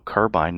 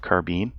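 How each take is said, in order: First: It is pronounced the non-American way. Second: It is pronounced the American way.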